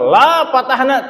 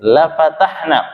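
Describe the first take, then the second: First: The vowel in 'la' is long. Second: The vowel in 'la' is short. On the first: We will not open it. The speaker calls it wrong. "Kalau la-nya panjang la tidak" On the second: We will surely open it. The speaker calls it right. "la-nya pendek bukan panjang"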